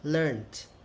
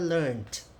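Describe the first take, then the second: First: The ending is pronounced as a 't' sound. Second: The same.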